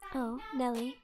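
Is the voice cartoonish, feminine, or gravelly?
feminine. A soft, sultry voice that sounds feminine. "that's kind of like a woman voice"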